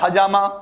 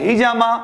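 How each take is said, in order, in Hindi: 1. h के बाद पहला स्वर a है। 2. h के बाद पहला स्वर e है। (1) "एच ए बोल रहे हैं" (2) "एच ई बोल रहे हैं"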